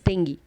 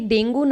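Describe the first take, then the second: First: The word ends with an 'ee' vowel. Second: The word ends with an 'oo' vowel. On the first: "एक और तरीके से pronounce किया जाता है, which is डेंगी" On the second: "ये डेंगू ना एक और तरीके से प्रोनाउंस किया जाता है"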